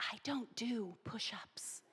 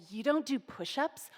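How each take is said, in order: First: Hushed whisper aside to a friend; private whisper. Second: Scornful question rising at the end; mocking challenge. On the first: Retold or imitated. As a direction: whisper it so the senior can't hear. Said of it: "privately say". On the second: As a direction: call her out in front of everyone. Scary senior mocks the narrator.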